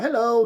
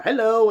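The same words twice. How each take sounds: First: Sing-song hello, higher; teasing leprechaun popping out again; cheeky leprechaun. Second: Higher, louder sing-song hello popping out; playful mock leprechaun greeting; cheeky leprechaun. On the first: Retold or imitated. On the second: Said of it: "He's like".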